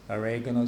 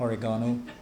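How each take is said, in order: First: Oregano is said in a non-British way. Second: Oregano is said in a British way. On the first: Some other people say it like this. The speaker calls it wrong. "some people say. Shocking uh, pronunciation" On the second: The speaker says it like this. The speaker calls it right. "I say uh, oregano. I'm half British"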